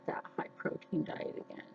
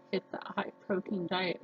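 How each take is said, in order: First: Fast, breathy aside under her breath; sudden whisper. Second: Said in the usual way. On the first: Real, not acted. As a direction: drop to a quick whisper for "high protein diet". Repeating her diet plan, whispered.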